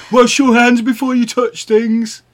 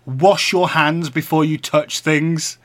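First: High, loud mocking nag; mocking high nagging voice. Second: Slow nagging quote. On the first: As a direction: mimic a bossy partner loudly. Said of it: "You were like". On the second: Retold or imitated. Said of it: "and said".

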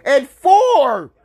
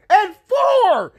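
First: Said in the usual way. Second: Disbelieving shout. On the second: Real, not acted. Fan shouting about the pick, high and outraged. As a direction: pitch way up, outraged.

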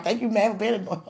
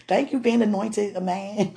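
First: Said in the usual way. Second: Laughing through the words; giggling thanks. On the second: Real, not acted. To wife, laughing botched thanks. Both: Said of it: "I say it right".

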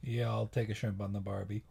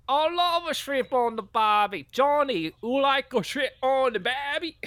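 First: Said in the usual way. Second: Very high, loud hammy voice; over-the-top high-pitched enthusiasm; gushing role. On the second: Acted. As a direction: squeal it with mock delight. Acted gushing over shrimp catchphrase.

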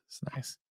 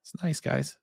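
First: Breathy whispered aside; whispering. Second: Said in the usual way. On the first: Real, not acted. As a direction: drop to a whisper. Repeating praise of the camera.

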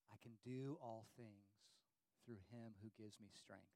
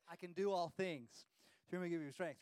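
First: Quiet recitation. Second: Louder, pumped-up sports motto; hyped-up recitation. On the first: Shown as a demonstration. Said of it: "like this". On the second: Retold or imitated. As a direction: shout it like a pep chant. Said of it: "and he's like, like this".

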